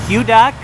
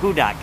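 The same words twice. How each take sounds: First: The first vowel is a "you" sound, like bugle. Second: The first vowel is a plain "oo" sound, like who. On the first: "with the bugle U" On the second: "kind of like Horton, here's a"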